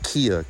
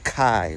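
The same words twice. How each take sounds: First: Kia in two syllables, kee-ah; wrong pronunciation. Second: Kai in one syllable, like sky; correct pronunciation. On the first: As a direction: say Kia like the car brand. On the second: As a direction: say Kai, rhyming with eye. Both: Shown as a demonstration. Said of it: "not Kia".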